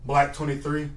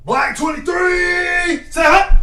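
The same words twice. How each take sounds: First: Said in the usual way. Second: High, loud, slow drawn-out snap count; own cadence shout. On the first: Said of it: "tell me that cadence ain't nice". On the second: Pretend. Player showing off his own cadence, high drawn-out shout. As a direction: holler it long, showing off your cadence. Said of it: "I'm finna do my own cadence".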